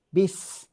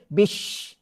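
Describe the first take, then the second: First: It ends with a sharp 's' sound. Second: It ends with a hushing 'sh' sound. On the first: The speaker calls it right. "huruf hujung lidah daripada sini menekan ke belakang gigi gunting bawah" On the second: The speaker calls it wrong. "dia baca bunyi shin"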